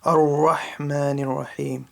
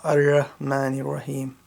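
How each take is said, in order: First: "Ar-Rahmanir Rahim" with a throaty pharyngeal ħa and full ra, slowly; careful, correct tajweed on "Ar-Rahmanir Rahim"; correct big ha. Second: "Ar-Rahmanir Rahim" with a plain English h and thin ra; a mistaken, flat h in "Ar-Rahmanir Rahim"; wrong light ha. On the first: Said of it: "Not Ar-Rahmanir Rahim". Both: Shown as a demonstration.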